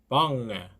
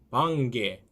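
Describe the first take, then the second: First: The ng runs into the vowel without g. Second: A hard g is heard after the ng. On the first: The speaker calls it right. "방을, 방에 이렇게 하시면 되겠습니다" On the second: The speaker calls it wrong. "방개 하시면 안 됩니다"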